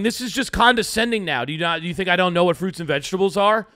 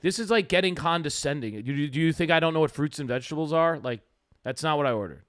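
First: Quick, slightly raised mock irritation; mildly annoyed. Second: Understated irritation, level voice, fast middle; annoyed, not screaming. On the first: Retelling his complaint to the juice bar server, mildly annoyed. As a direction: retell the complaint a bit heated and fast. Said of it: "are you saying this in the tone". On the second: Shown as a demonstration. Showing his cohost how he told the server off, understated annoyance. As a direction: show the real tone: annoyed but not yelling. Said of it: "That was how I said it".

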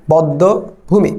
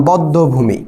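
First: বদ্ধভূমি drawn out very slowly, d held double; slow doubled consonant. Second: বদ্ধভূমি with a doubled d, as one word; doubled consonant. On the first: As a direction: break বদ্ধভূমি into slow parts, "bod-do... bhumi". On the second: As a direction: say বদ্ধভূমি as "bod-do-bhumi". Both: Shown as a demonstration. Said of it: "দ্বিত্ব হয়".

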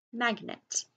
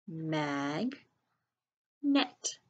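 First: Said in the usual way. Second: Teacher stretching "Mag", then a crisp "net"; syllable by syllable. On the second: Shown as a demonstration. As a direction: sound out "Mag, net" with a long gap. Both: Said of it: "sound it out by syllables".

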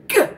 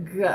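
First: Hard pushed g; heavy g. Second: Tongue barely touching for g; light g. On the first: Speech teacher modelling the rabbit, a heavy g. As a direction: punch the g from the back of the tongue. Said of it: "He says". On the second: Speech teacher to child, a light g. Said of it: "Let's try it light". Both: Shown as a demonstration.

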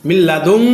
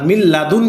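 First: লাদুন said as "ladum", ending in a nasal hum; wrong ghunna on nun. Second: লাদুন ending in a crisp plain n; clear nun, no ghunna. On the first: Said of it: "মিল লাদুন বলিনি". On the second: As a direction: say the ন of লাদুন clearly, without humming. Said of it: "আর মিল লাদুন কেন বলেছি". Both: Shown as a demonstration.

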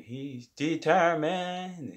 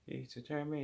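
First: He's determined drawn out very slow, higher and loud; hammed-up narrator emphasis; dramatic declaration. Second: He's determined said softer, trailing off; hushed afterthought; quiet echo. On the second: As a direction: let determined fade away as an echo. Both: Shown as a demonstration.

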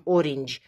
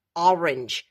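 First: "orange" said with an open O, the wrong way; "orange" with a round O at the start; "orange" starting on O, not A; wrong O sound. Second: "Orange" opened toward A at the start; "Orange" said as "arenj", mouth open to A; "Orange" with a wide A, not O; correct A sound. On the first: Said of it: "Nu zicem orange". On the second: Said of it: "Deschidem gura puțin spre A, nu O". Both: Shown as a demonstration.

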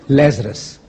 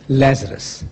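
Both takes have the same delivery.

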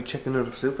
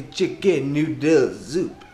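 First: Said in the usual way. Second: Hammed-up French accent; badly faked French accent. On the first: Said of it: "I don't know why I would". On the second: Vlogger announcing tonight's dinner, mock French accent. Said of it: "That's my French accent".

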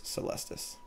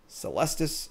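First: Celestis breathed out as a soft whisper. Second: Said in the usual way. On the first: Real, not acted. Muttering the card name repeatedly.

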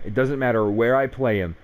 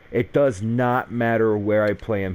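First: Said in the usual way. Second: "does not" split apart, "not" leaned on; stress on not. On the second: Shown as a demonstration. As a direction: spell out "does not" and push the "not".

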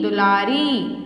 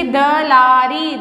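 First: दुलारी with a short u on du; the corrected दुलारी, du clearly voiced; corrected word. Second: दलारी said without the u sound, slow; the wrong form दलारी, sounded slowly; wrong spelling read out. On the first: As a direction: say दुलारी as du-laa-ri. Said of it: "तो कहाँ लगेगी ऊ की मात्रा". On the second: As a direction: read दलारी as da-laa-ri, drawn out. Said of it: "कछुआ नहीं होता". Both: Shown as a demonstration.

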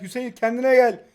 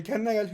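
First: Louder, higher repeated order; forceful reprimand. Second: Said in the usual way. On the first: Real, not acted. Player tells Hüseyin to get a grip, forcefully. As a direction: raise the voice to demand composure.

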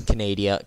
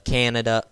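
First: Canada said as "ca-NAY-dee-uh"; joke mispronunciation. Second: Said in the usual way. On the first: Shown as a demonstration. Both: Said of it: "Yeah, I said it, Canada".

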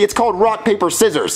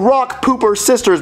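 First: Said in the usual way. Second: "Rock Pooper Sisters" with pooper and sisters; mock-quoting "Rock Pooper Sisters"; wrong name. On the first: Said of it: "It's not called Rock Pooper Sisters". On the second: Shown as a demonstration.

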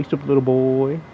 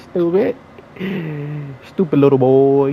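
First: Said in the usual way. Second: Louder, jeering at the loser; loud mocking taunt. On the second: Real, not acted. Gamer jeers loudly at the opponent he beat. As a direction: call him out loudly, mocking.

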